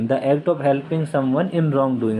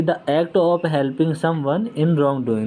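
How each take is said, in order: First: Even slower, every word stretched apart; very slow dictation. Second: Each English word laid out slowly for notes; slow dictation. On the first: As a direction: repeat it slowly so students can write. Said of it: "teacher repeats definition slower". (और भी धीमे, शब्द-शब्द अलग करके) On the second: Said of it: "teacher dictates definition". (धीमे-धीमे बोलकर लिखवाना) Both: Shown as a demonstration.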